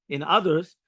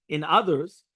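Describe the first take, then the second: Both takes have the same delivery.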